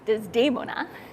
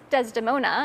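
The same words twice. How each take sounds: First: The name is said with an Italian pronunciation. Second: The name is said with an English pronunciation.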